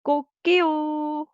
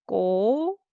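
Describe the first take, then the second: First: High, loud crow with a long held last syllable; Korean rooster crow. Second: Syllable by syllable. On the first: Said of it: "but Korean we say". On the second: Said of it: "say syllable by syllable". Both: Shown as a demonstration.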